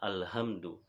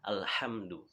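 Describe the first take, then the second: First: The h is a plain, light h sound. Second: The h is a deep, breathy throat sound. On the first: The speaker calls it wrong. "orang yang tidak teliti dia akan membaca alhamdu" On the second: The speaker calls it right. "mahrot yang benar adalah alhamdu"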